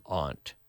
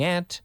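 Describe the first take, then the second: First: Aunt said as /ɑnt/, long open ah like aunt in "father"; aunt with broad ah. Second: Aunt said as /ænt/, short flat a like ant. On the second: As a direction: say aunt with the a of cat. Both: Shown as a demonstration.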